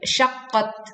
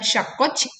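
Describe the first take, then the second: First: The final t is released with light breath. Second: The final t is released with excessive breath. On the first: The speaker calls it right. "tetapi syaqqat" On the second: The speaker calls it wrong. "bukan syaqqat"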